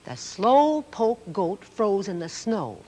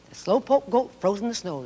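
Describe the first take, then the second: First: It is read at a normal pace. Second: It is read a little faster.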